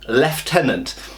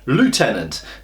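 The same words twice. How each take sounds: First: It is said with a British pronunciation. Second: It is said with an American pronunciation. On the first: "we say in Britain lieutenant" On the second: "Americans say lieutenant"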